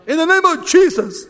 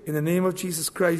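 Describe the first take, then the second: First: It is said loudly and dramatically. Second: It is said in a calm, quiet voice.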